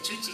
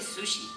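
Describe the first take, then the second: First: The word begins with a ch sound. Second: The word begins with an sh sound. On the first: The speaker calls it wrong. "No se dice chuchi" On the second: The speaker calls it right. "se dice sushi"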